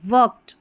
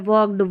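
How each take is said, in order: First: The word ends with a t sound. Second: The word ends with a clear d sound. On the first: The speaker calls it right. "ट का sound रहता है" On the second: The speaker calls it wrong. "अब इस डी को देख के ड पे जोर दिया जाता है"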